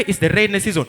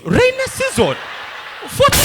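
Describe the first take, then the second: First: Said in the usual way. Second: "Rainy season?" thrown up much higher and louder; incredulous. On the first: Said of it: "we said". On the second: Real, not acted. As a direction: scoff at the idea, pitch shooting up. Incredulous echo of the claim.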